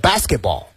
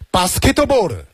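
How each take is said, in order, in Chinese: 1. 这是用标准英语发音说的。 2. 这是用日式发音说的。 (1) "英文呢是" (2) "日式发音呢就是"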